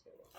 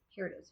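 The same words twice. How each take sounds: First: Slow, breathless whisper to herself; whispered repeat. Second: Said in the usual way. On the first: Real, not acted. Repeating to herself after finding the pattern, whispered. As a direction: breathe it out slowly, relieved. Found the lost pattern in bag.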